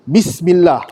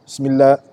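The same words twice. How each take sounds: First: The opening b sound is clearly pronounced. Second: The opening b sound is dropped. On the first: The speaker calls it right. "Kita kena sebut B" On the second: The speaker calls it wrong. "dah tak ada B"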